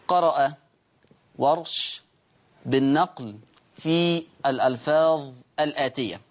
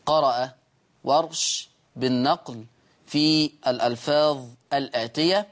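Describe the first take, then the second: No difference in how they are said.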